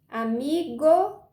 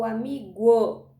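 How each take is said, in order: First: "amigo" slow, ending in a plain hard "go"; sílaba final GO. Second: "amigo" mispronounced slowly as "amiguo", ending "gwo"; sílaba final GUO. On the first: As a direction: stretch "amigo", no w after the g. ("amigo" pausado, com "go" normal no fim) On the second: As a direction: put a w after the g in "amigo". ("amigo" dito errado, terminando em "guo") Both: Shown as a demonstration. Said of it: "usar o go ou go".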